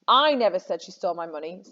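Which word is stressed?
I. The stress is on "I".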